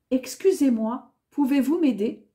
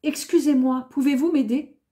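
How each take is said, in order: Both takes have the same delivery.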